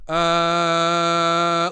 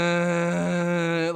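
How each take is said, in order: First: Loud, powerful sustained tone; full breath support. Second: Sustained tone with limited power; little breath support. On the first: Singer demonstrating breath while kneeling, strong projected tone. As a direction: project the held note with force. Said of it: "there's more power". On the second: Singer demonstrating breath while sitting crunched, weakly supported tone. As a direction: hold the note as if crunched over. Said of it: "that's all the breath I got". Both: Shown as a demonstration.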